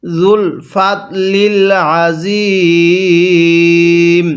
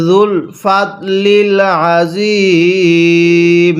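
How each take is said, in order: First: Even slower, every vowel drawn long; slower recitation. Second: Very slow, every vowel stretched; slow recitation. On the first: Teacher repeats it slower for learners. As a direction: stretch it further. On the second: Teacher models slow recitation. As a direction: lengthen each syllable. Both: Shown as a demonstration. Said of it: "হ্যাঁ, কিভাবে পড়ব?".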